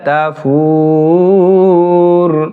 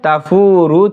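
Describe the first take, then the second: First: The word ends on a bare consonant. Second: The word ends with a short vowel. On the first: The reader stops at this word. "এক পেশকে বাদ দিয়ে সাকিন করতে হবে" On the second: The reader continues without stopping. "শাহিকও ওয়াহিয়া তাফুরু থেকে"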